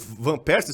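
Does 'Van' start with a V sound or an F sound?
V sound. Van begins with a V sound. "o Van Persie"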